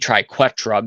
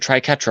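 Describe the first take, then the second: First: The middle consonant is a kw sound. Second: The middle consonant is a plain k sound. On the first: The speaker calls it right. "it would be triquetra because it has a U after the Q, so it'd be qua" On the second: The speaker calls it wrong. "I pronounce it triquetra all the time"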